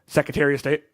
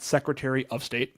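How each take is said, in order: First: Secretary and of run together as one word. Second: Secretary and of are kept as separate words. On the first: This is the local way of saying it. "the Secretary of is one word" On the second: This is the standard way of saying it. "not Secretary of State"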